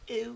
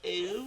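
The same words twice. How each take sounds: First: The first part is short. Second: The first part is drawn out.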